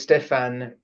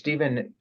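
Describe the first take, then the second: First: The name is said the Swiss way. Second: The name is said the American English way. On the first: "was always Stefan Chivigian to me because I grew up in Switzerland" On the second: "the way you say his name in in American English"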